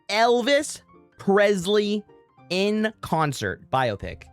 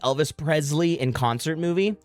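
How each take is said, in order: First: It is said slowly. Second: It is said at normal speed.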